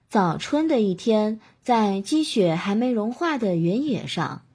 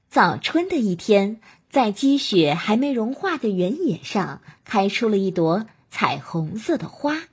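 First: The syllables are lazy, slurred and mumbled. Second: Every syllable is crisply and fully articulated. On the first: The speaker calls it wrong. "这样懒懒散散的" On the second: The speaker calls it right. "这是非常清晰的"

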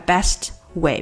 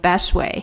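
First: The t at the end of best is pronounced. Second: The t at the end of best is dropped.

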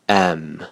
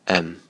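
First: The vowel is full and clearly stressed. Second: The vowel is reduced and weakly spoken. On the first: "强读式" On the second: "弱读式"

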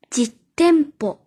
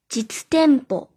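First: The word has a doubled consonant after the first syllable. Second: The word is said without a doubled consonant.

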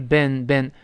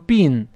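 First: The vowel sounds like in 'ben'. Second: The vowel sounds like in 'bin'. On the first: The speaker calls it right. "是ben" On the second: The speaker calls it wrong. "它不懂得bin"

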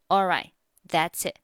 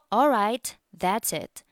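First: The final t sounds are left unpronounced. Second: The final t sounds are clearly pronounced. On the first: "也可以不读" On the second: "那末尾的t 我们可以读"

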